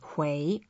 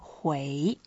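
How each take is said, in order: First: The word is said at normal, short length. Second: The word is stretched out long and melodic.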